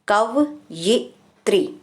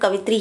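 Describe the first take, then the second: First: The middle 'ya' sound is clearly said. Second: The middle 'ya' sound is dropped. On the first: The speaker calls it right. "कव ये त्री, ठीक है।" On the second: The speaker calls it wrong. "हम कवित्री बोलते हैं"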